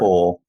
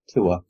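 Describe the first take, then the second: First: It is said with a British vowel, like 'tor'. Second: It is said with an American vowel. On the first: "Like in Torah" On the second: "you say tour, don't you?"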